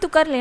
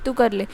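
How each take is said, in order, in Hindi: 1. यह वाक्य खुश लहजे में कहा गया है। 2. यह वाक्य उदास लहजे में कहा गया है। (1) "हैप्पीली बोल सकते हैं" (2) "सैड बोल रहे हो"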